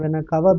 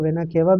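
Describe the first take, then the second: First: The first vowel of cava sounds like 'ah'. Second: The first vowel of cava sounds like 'eh'. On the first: "vena कावा भी बोल सकते हैं" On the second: "अब आप इसको vena केवा भी बोल सकते हैं"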